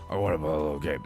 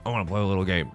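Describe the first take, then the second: First: It is said imitating the Jigsaw voice. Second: It is said in a near-normal voice.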